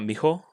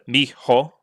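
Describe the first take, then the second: First: The word is squeezed into nearly one syllable. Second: The word is said with two clear syllables. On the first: "trying to make it like one syllable almost" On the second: "as opposed to"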